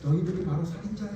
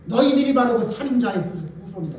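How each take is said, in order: First: Gentle soft version. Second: Bold accusation. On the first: Shown as a demonstration. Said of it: "이렇게 말하면 돼요?". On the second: Retold or imitated. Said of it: "그게 부드러워요?".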